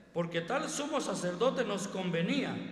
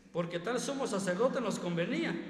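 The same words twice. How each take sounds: No difference in how they are said.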